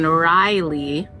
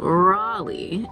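First: The first syllable sounds like 'rye'. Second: The first syllable sounds like 'raw'. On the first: The speaker calls it wrong. "I've been saying Riley this whole time" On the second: The speaker calls it right. "she told me that it's pronounced Raleigh"

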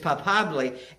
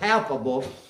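First: The word is pronounced the Spanish way. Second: The word is pronounced the English way. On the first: "but in Spanish it's palpably" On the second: "We pronounce it palpable"

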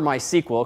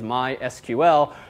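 First: The name is said in a shorter, quicker form. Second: The name is said in a longer, slower form. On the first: This is the informal everyday pronunciation. "I prefer MySQL because it's faster to say" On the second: This is the company's official pronunciation. "Their official pronunciation is MySQL"

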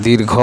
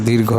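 No difference in how they are said.

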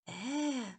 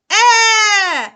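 First: The vowel is produced very quietly. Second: The vowel is produced very loudly. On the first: "проспіваємо тихо" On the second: "заспіваємо його голосно"

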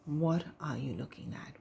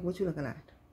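First: It is said in a gentle tone. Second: It is said in a hostile tone.

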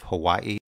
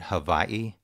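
First: The word starts with a W sound. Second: The word starts with a V sound. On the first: "instead of Hawaii" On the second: "Some people pronounce the W as a V"

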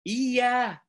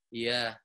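First: It is said with lively, expressive intonation. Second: It is said in a flat, unvaried tone. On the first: The speaker calls it right. "Coba gunakan intonasi" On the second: The speaker calls it wrong. "itu flat tuh. Nggak menarik tuh"

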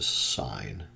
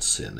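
First: The vowel is long, rhyming with line. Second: The vowel is short, rhyming with pin. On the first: The speaker calls it right. "it's a sine" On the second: The speaker calls it wrong. "It's not sin"

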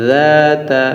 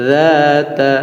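Both takes have the same delivery.

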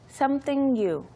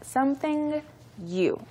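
First: The two words are linked together. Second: The two words are said separately.

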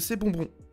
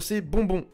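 First: The plosive bursts are softened by a pop filter. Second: The plosive bursts pop loudly without a filter.

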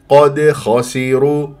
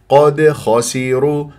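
The two takes are said the same way.

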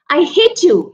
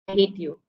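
First: The phrase is said in a strong, emotional voice. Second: The phrase is said in a flat, calm voice. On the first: It is an exclamation that needs an exclamation mark. The speaker calls it right. "You say it with full feelings" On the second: It is a plain statement ending in a full stop. The speaker calls it wrong. "You don't say, I hate you. I hate you is just a full stop"

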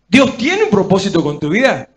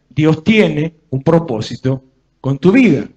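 First: It is said as a question. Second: It is said as a flat statement. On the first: It asks the listener to consider it. The speaker calls it right. "tiene que preguntar" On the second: It asserts the fact. The speaker calls it wrong. "en vez de decir"

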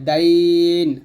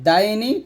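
First: The word ends with a bare consonant. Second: The word ends with a short vowel. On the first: The reading stops on this word. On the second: The reading continues past this word.

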